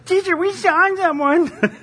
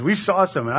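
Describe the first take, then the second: First: High, slow whiny tattletale; whiny little boy. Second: Said in the usual way. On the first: Retold or imitated. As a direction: whine it like a tattling kid. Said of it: "he sounds like a whiny little b". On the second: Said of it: "That's how every judgment starts".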